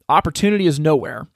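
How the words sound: The ending is run together as one word. There is no opportunity anywhere. "Either opportunity is nowhere"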